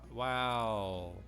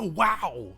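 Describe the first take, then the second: First: It sounds flat and sarcastic. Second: It sounds genuinely amazed and excited. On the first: The speaker is not really impressed. "unless they're like" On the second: The speaker is truly impressed. "you would not say that as Ken. You go"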